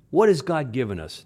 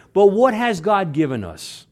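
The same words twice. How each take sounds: First: Said in the usual way. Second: Louder question. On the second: Shown as a demonstration.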